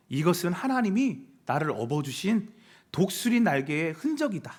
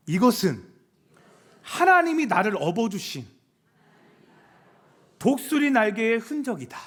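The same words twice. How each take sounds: First: Measured, affirming declaration; declaration to oneself. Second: Firm declaration in phrases, with long pauses; leading a repeat-after-me. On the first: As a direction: declare it to the mirror with conviction. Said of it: "이렇게 외쳐보세요". (거울 보며 다짐하듯 선언) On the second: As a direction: call it out for the crowd to echo. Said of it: "한번 같이 따라해볼까요". (따라 하도록 끊어서 힘 있게 외치듯) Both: Shown as a demonstration.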